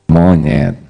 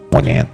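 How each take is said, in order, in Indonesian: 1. Kata itu diucapkan dengan nada tenang. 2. Kata itu diucapkan dengan nada kasar. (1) "Tenang kan?" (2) "Ganti nadanya"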